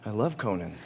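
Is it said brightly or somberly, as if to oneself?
somberly. It is said somberly, quietly to oneself.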